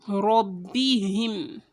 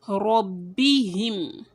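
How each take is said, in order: No difference in how they are said.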